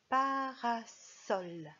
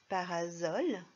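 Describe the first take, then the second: First: The middle consonant is a hissing S sound. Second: The middle consonant is a buzzing Z sound. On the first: The speaker calls it right. "le serpent siffle" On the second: The speaker calls it wrong. "C'est ce qu'il aurait fallu dire si, dans ce mot, le S avait respecté la règle"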